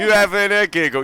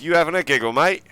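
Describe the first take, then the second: First: Hammed-up Cockney, higher and louder; full Cockney. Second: A hint of Cockney, half-done; lightly Cockney "You having a giggle, mate?" with "mate" rising. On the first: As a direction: go full Cockney on "You having a giggle?", dropping the h in "having". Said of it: "You've got to go full Cockney". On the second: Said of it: "Got to say it in that voice". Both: Shown as a demonstration.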